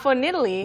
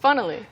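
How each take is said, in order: First: The middle keeps the full 'funny' vowel. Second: The middle vowel is reduced and quick. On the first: The speaker calls it wrong. "it's not funnily" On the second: The speaker calls it right. "It's funnily"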